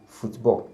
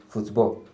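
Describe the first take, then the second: The two takes are said the same way.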